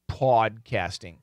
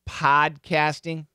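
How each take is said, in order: First: The first vowel is the AW sound. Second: The first vowel is the short O sound. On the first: The speaker calls it wrong. "I'll do a short O and AW" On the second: The speaker calls it right. "The first pronunciation was correct"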